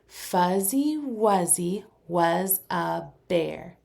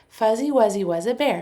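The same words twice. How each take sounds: First: It is said a little faster. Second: It is said as fast as possible. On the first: "Now a little faster" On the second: "as fast as you can"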